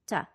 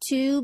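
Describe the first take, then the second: First: The word is said weakly with a schwa. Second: The word is said fully with a clear vowel.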